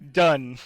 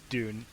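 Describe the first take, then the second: First: The vowel sounds like 'uh' in 'done'. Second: The vowel sounds like 'oo' in 'dune'.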